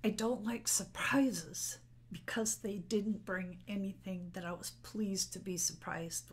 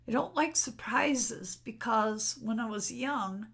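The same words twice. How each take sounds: First: Tearful whisper. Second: Said in the usual way. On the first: Real, not acted. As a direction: push the words out in a whisper through tears. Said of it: "sorry, I'm getting emotional".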